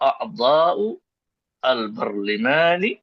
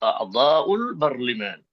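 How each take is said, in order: First: The two words are said separately, not joined. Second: The two words run together into one unit.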